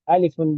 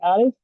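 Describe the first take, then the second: First: The name ends with an added un sound. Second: The name stops short without the un sound. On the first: "the long version" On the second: "so you just say alif"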